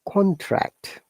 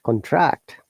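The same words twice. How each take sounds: First: The pitch starts high and goes down. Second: The pitch starts low and goes up. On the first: It is used as a noun. "if it is noun, our intonation is from upper to down or rising to falling" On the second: It is used as a verb. "falling to rising or down intonation to up"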